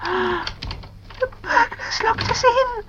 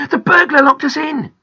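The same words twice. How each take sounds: First: High, slow, breath-filled frightened whisper; scared whisper. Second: High, loud, alarmed shout; crying out. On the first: Girl locked in by a burglar, scared whisper. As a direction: whisper it in dread, drawn out. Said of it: "whispered Pam, very scared". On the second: Boy telling Grandpa about the burglar, crying out. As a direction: yell the news through the door. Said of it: "cried Peter". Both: A narrator's reading.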